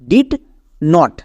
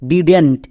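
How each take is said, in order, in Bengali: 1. এটি দুটি আলাদা পূর্ণ শব্দ হিসেবে উচ্চারিত হয়। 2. এটি একটি সংকুচিত শব্দ হিসেবে উচ্চারিত হয়। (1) "এখানেও আমাদের দুটো ওয়ার্ড আছে" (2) "একসঙ্গে উচ্চারণ করতে যাব তখন এর উচ্চারণটা হয়ে যাবে ডিডেন্ট"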